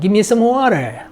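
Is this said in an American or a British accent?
American. It is said in an American accent. "미국식은"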